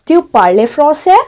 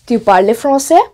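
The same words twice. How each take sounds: First: "français" lifted at the end as a question; question intonation. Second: Said in the usual way. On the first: Shown as a demonstration. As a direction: raise the pitch on the last syllable of "français". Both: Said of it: "So there is a difference".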